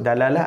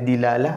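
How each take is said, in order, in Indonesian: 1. Suku kata pertama memiliki vokal a. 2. Suku kata pertama memiliki vokal i. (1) "Ada boleh sebut dalalah" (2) "ada dilalah"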